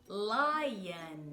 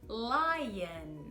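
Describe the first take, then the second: The two takes are said the same way.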